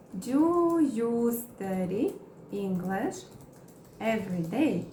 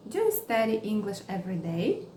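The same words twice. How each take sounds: First: Very slow, broken into chunks; slow chunked teaching read; slow model question. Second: Said in the usual way. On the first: Shown as a demonstration. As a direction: spell it out slowly for learners. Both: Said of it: "Vamos criar mais exemplos".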